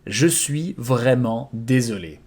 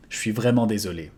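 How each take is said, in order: First: "Je suis vraiment désolé" spoken slowly, every syllable spelled out; slow it down so learners catch each sound; slow model repetition. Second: "Je suis vraiment désolé" run together quickly at native speed; natural fast take. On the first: Teacher slowing the phrase for students, slow. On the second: Teacher giving the natural-speed version, fast. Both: Shown as a demonstration. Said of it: "I'm truly sorry".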